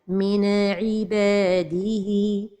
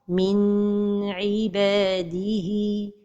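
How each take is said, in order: First: The n sound is bounced with an echo. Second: The n sound is held too long. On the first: "La première erreur, c'est القلقلة de النون الساكنة" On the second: "La deuxième erreur, c'est de prolonger son temps"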